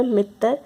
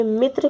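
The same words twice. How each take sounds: First: मित्र said as "mit-tar"; mispronounced मित्र. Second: Said in the usual way. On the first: Shown as a demonstration. Teacher showing students a common error, मित्र mispronounced as "mittar". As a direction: break the final tr of मित्र into "tar". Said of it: "अशुद्ध उच्चारण के कारण ही". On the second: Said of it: "अशुद्ध उच्चारण के कारण".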